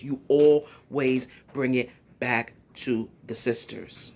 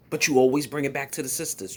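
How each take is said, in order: First: "You always bring it back" slowly, word by word; slow, emphatic repeat. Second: Said in the usual way. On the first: Real, not acted. Commentator driving the point home to Tommy, slow and emphatic.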